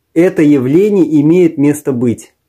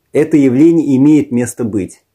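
Both takes have the same delivery.

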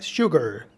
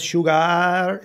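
First: The last syllable is short and clipped. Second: The last syllable is drawn out long. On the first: The speaker calls it right. "La última sílaba suena cortita" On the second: The speaker calls it wrong. "No es sugar"

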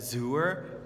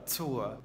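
First: The word begins with a plain z sound. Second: The word begins with a ts sound. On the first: The speaker calls it wrong. "you write it like Zur" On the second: The speaker calls it right. "but you pronounce it Zur"

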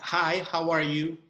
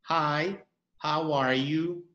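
First: It is spoken at a normal, natural pace. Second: It is spoken very slowly and mechanically.

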